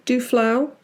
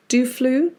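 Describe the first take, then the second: First: Duflau with the last part rhyming with how, rising; tentative Duflau, -flau as in how; second try at the name. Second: Duflu said doo-floo, rising like a question; testing Duflu as doo-floo, tentative rise; unsure name pronunciation. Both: Shown as a demonstration. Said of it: "is that it?".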